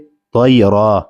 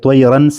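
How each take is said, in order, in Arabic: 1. تنتهي الكلمة بصوت 'a' طويل. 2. تنتهي الكلمة بصوت 'an' أنفي.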